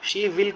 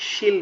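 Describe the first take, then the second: First: It is said as two full separate words. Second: It is said as one short contracted word.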